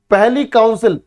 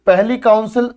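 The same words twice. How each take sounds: The two takes are said the same way.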